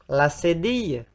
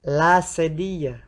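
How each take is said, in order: The two takes are said the same way.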